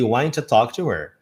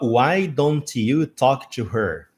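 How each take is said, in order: First: "Why don't" is squeezed into one short syllable. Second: Every word is pronounced fully and separately. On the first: "why don't you uh, vai se tornar então why'n't" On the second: "Legal, bacana, nada de errado"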